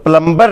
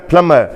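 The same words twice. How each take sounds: First: The b sound is clearly pronounced. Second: The b sound is silent. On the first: The speaker calls it wrong. "प्लम्बर नहीं हमने कहना" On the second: The speaker calls it right. "जो बी है इसमें वो mute होता है, वो नहीं बोला जाता"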